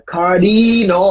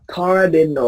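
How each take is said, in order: First: Cardinal said slowly, the wrong way; drawn-out wrong take of cardinal; wrong pronunciation. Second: Cardinal said the right way, short and clean; correct pronunciation. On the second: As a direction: model cardinal as the teacher reads it. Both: Shown as a demonstration. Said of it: "không phải là cardinal".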